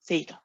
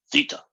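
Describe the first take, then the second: First: Theta as a light, higher THAY-ta; feminine-sounding American version. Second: Theta as a hard THEE-ta; aggressive heavy E. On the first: Retold or imitated. Teacher mocking the American version, light "thay" in theta. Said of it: "That's a very feminine sound to me". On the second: Shown as a demonstration. Teacher contrasting it with the light version, aggressive "thee" in theta. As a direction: attack theta with a forceful long "ee". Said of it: "it's aggressive".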